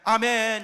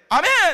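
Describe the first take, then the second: First: It is said flat and low, without energy. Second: It is said high-pitched and energetic.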